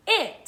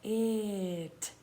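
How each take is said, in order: First: Said in the usual way. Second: "It" softly stretched out; sounded out slowly. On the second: Shown as a demonstration. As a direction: draw out "It" sound by sound, softer. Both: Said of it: "Let's read the sounds".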